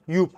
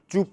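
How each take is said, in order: First: The name starts with a Y sound. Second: The name starts with a J sound. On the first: The speaker calls it right. "تلفظ صحیح این برند یوپ هست" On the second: The speaker calls it wrong. "توی زبون فارسی جوب تلفظ میشه که اشتباه هستش"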